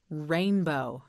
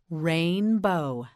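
First: Said in the usual way. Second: "rainbow" drawn out as rain-bow; stretched model word. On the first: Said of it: "One more time". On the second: Shown as a demonstration. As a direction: stretch both syllables of "rainbow". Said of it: "Yes, again".

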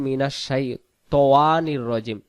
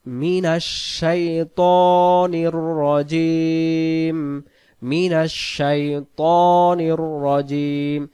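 First: الشيطان said with an added w, "shaitowan"; mistaken pronunciation. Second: الشيطان chanted slowly with a pure long "to", no w; correct recitation. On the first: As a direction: say من الشيطان الرجيم unchanted, slipping a w into الشيطان. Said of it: "ওয়াও একটা অতিরিক্ত যুক্ত". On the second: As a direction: stretch الشيطان and الرجيم in a held chant. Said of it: "সেখানে ওয়াও নাই". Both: Shown as a demonstration.

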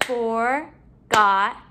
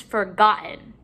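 First: "Forgotten" slowly, in three beats; syllable by syllable. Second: Said in the usual way. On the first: Shown as a demonstration. Teacher counting syllables in the word, broken up. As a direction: break "Forgotten" apart with clear pauses. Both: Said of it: "break up our syllables".

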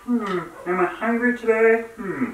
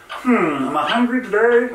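First: High Muppet frog voice; best Kermit impression, wobbly and high. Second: High, croaky frog voice; Kermit the Frog voice. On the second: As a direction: do your best Kermit. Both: Shown as a demonstration. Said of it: "I'm trying to make my best Kermit the Frog voice".

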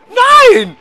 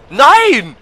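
First: "Nein!" shrieked much higher and louder; second cry climbs into a shriek; shrieking shout. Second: Loud, high "Nein!" of dismay; first cry of alarm, loud and high; alarmed shout. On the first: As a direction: squeal it out in full panic. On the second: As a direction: yell at the screen as it goes wrong. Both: Real, not acted. Game character about to die.

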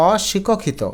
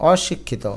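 First: অশিক্ষিত as "aw-shi-ko-khito"; without hasanta. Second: অশিক্ষিত as "aw-shik-khito"; correct pronunciation. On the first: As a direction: add an o after the k in অশিক্ষিত. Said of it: "তা নইলে উচ্চারণ হবে". (অশিক্ষিত, হসন্ত ছাড়া অশিকোখিত) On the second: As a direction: close the k in অশিক্ষিত, said softer. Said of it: "কর নিচে হসন্ত দিবে". (অশিক্ষিত, ক-তে হসন্ত দিয়ে) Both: Shown as a demonstration.

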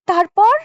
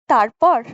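First: High, startled তারপর?; a woman startled by the shooting story asks what came next; shuddering question. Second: Said in the usual way. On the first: A narrator's reading. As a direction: gasp out তারপর? with a shiver. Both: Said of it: "শিউরে উঠে রানী বলে".

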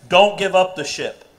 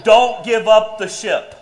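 First: Said in the usual way. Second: Motto said through a laugh. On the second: Shown as a demonstration. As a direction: laugh while saying it. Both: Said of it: "not don't do drugs".

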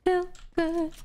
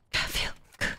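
First: Sung, high sing-song snippet; sung, song imitation. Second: Unvoiced whisper, softer; whispered echo. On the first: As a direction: sing it high and drawn, like a hook. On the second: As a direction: whisper it like a song's backing hook. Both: Echoes the song Feel Good.

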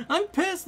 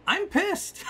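First: Laughing through it, pitched way up and louder; laughing pissed. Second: High-pitched exasperated outburst, louder; pissed off. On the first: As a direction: repeat it while cracking up. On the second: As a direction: blurt it out way up high in disbelief. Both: Real, not acted.

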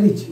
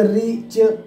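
First: Said in the usual way. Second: रिच drawn out as two beats, "ree... ch"; split in two. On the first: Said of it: "रिच को एक तरीके से कहेंगे". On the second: Shown as a demonstration. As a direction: break रिच into two separate parts, slowly. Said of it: "दो तरीके से कहोगे".

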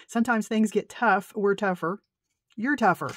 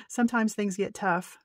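First: Louder reread. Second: Said in the usual way. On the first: Real, not acted. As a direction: read the card louder, proudly. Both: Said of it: "Look, I can't even read".

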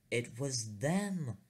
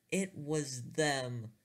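First: Slow, rising alarm at the sight; panicked realisation. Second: Higher, slow hammed-up terror; mock panic. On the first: Retold or imitated. Narrator spotting the boys in space, mock panicked. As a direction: gasp it out, dread dawning. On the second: Narrator repeating the discovery, higher hammed-up panic. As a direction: cry it out as the panic peaks.

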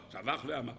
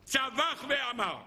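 First: Said in the usual way. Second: צווח ואמר drawn out slow and high, צווח stressed; stressed shout word. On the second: Shown as a demonstration. Rabbi stressing that Caleb shouted, slow high צווח ואמר. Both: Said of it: "היה צריך לצעוק".

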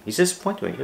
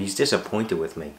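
First: "He's disappointed with me" repeated much higher, mocking and incredulous; sarcastic. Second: "He's disappointed with me" said in a lightly mock-worried tone, close to his own voice; half-hearted pretend worry. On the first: Real, not acted. Vlogger scoffing at a disappointed viewer, sarcastic high echo. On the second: Vlogger mocking imagined upset over an email, mild mock worry. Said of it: "You, you think that I went".

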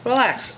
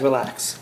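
First: Much higher, falling playful plea; high-pitched coaxing. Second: Said in the usual way. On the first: Pretend. Cook urging the squash strands to loosen, high-pitched coaxing. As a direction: coax them in a high, falling voice.

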